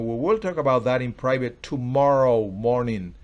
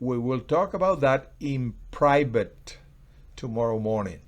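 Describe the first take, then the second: First: The word tomorrow carries the strongest stress. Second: The word private carries the strongest stress. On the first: It will happen tomorrow, not now. "Es mañana, no ahora" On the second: It will be discussed privately, not in public. "Estoy resaltando que es en privado"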